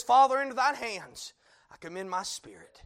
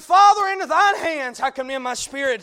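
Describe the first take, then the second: First: Said in the usual way. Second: Fervent cry. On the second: Acted. Repeated with rising fervour.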